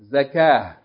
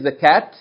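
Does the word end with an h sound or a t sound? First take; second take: h sound; t sound. First: The word ends with a soft h sound. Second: The word ends with a clear t sound. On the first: The speaker calls it right. "If you stop on it, you read it like ha" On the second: The speaker calls it wrong. "We don't say Zakat"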